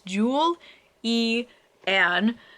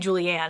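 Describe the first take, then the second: First: The first name is split into separate parts. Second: The first name is run together as one word. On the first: The speaker calls it right. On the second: The speaker calls it wrong. "I wouldn't say Julie Ann"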